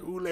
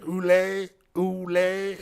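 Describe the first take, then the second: First: Mock French accent. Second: Higher, louder mock French "Oolé" for "allez"; hammed-up French tourist saying "Oolé"; mock French accent. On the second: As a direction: imitate a lost Frenchman repeating "Oolé". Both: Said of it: "he was like".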